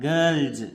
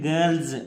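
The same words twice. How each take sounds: The two takes are said the same way.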